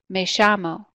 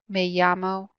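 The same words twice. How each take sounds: First: The double L sounds like 'sh'. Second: The double L sounds like 'y'. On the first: "the Y and the double L makes a sh sound" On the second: "The other way to pronounce it would be like a Y sound"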